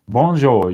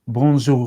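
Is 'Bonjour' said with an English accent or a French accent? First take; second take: English accent; French accent. First: It is said with a strong English accent. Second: It is said with a native-like French accent. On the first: The speaker calls it wrong. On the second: The speaker calls it right.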